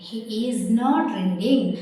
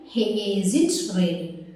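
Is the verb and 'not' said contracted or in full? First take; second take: full; contracted. First: Is and not are said as separate words. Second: Is and not merge into one short word.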